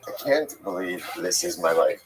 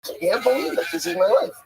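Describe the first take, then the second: First: It sounds dismayed and weary. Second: It sounds excited and grateful.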